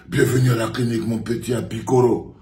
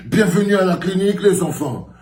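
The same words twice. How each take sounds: First: Said in the usual way. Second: Silly clown. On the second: Pretend. Clown host welcome, high.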